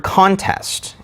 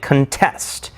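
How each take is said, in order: First: Contest said CON-test, as the noun; weight on the "con" of "contest"; stress on first syllable. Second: Contest said con-TEST, first syllable reduced; stress on second syllable. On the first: Teacher giving another example, CON-test stressed up front. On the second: Teacher switching the stress mark, con-TEST stressed late. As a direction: push the weight onto "test" in "contest". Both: Shown as a demonstration. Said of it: "If we switch the stress mark".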